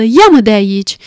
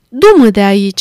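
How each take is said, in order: First: Trembling voice. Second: Louder, urgent plea of "Du-mă de aici"; exclaiming. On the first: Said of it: "spuse Scrooge cu o voce tremurândă". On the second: Scrooge begging the spirit to take him away, exclaiming loudly. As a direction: cry out "Du-mă de aici" to be taken away. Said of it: "exclamă Scrooge". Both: A narrator's reading.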